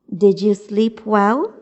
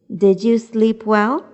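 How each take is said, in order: The two takes are said the same way.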